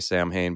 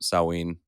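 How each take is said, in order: First: The word is sounded out as it is spelled. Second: The word is said in its traditional pronunciation. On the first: The speaker calls it wrong. "Many people will say Samhain" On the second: The speaker calls it right. "the pronunciation is actually Samhain"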